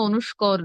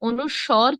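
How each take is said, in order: First: The last syllable sounds like 'skor'. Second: The last syllable sounds like 'swor'. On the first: "অনুস্বর কিংবা অনুস্কর নয়" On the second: "অনুস্বর কিংবা অনুস্কর নয়"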